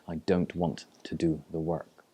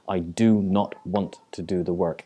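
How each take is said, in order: First: It is said in a plain, neutral way. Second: It is said with strong, emphatic feeling.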